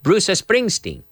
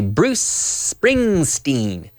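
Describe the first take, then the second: First: An extra vowel sound comes before the s. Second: The s starts the word with no vowel. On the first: The speaker calls it wrong. "So people always say" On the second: The speaker calls it right. "No, we say"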